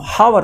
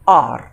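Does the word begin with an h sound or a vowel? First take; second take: h sound; vowel. First: The word begins with an audible h sound. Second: The word begins directly with a vowel sound. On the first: The speaker calls it wrong. "हावर नहीं पढ़ के" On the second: The speaker calls it right. "आर पढ़ेंगे"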